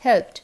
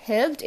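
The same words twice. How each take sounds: First: "helped" falling onto a firm T; crisp T to finish "helped"; correct T ending. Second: "helped" with a voiced D, pitch rising; wrong D ending. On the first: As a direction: say "helped" as "helpt", louder. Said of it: "it is helped". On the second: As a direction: say "helped" as "helbd". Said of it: "not helped". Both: Shown as a demonstration.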